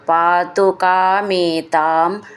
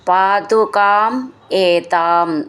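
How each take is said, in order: First: The two words are run together as one. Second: The two words are said as separate words.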